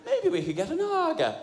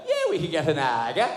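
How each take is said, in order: First: "Aga" said with flat a as ah-ga, voice pitched higher; the flat-voweled "Aga", lifting the pitch; mocking own Aga. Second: "Aga" said with the flat ah vowel, said plainly. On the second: Retold or imitated. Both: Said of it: "how I pronounced the word Aga".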